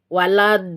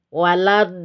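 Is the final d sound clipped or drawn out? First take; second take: drawn out; drawn out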